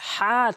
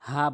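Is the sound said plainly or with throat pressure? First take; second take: pressed; plain. First: The sound is said with pressure in the throat. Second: The sound is said plainly without throat pressure. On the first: The speaker calls it right. "হা চাপ দিয়ে বলতে হবে" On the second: The speaker calls it wrong. "অধিকাংশ লোক হা বলে"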